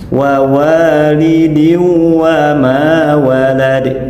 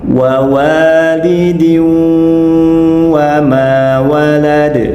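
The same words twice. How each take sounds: First: The sound before the second wa is rushed short. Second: The sound before the second wa is held long. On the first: The speaker calls it wrong. "Ini contoh bacaan yang tergesa-gesa" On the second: The speaker calls it right. "harus ditahan lama terlebih dahulu"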